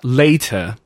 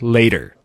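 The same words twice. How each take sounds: First: The t is pronounced crisply and fully. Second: The t is softened and lazily pronounced. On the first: The speaker calls it right. "would be much easier" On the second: The speaker calls it wrong. "American has a different way of pronouncing the words, and sometimes the laziness of a certain consonant"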